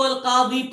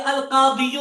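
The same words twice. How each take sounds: First: Said in the usual way. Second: "القاضیو" with an audible final "u" after the "ی"; full case ending. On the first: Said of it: "عرب لوگ کہتے ہیں اس کو القاضی پڑھ لیں". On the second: Shown as a demonstration. Teacher showing the theoretical subject form, "القاضیو" ending in a spoken "-yu". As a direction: sound out the damma ending of "القاضیو". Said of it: "تو یہ القاضیو ہو".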